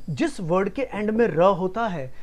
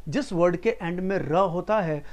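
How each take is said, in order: Both takes have the same delivery.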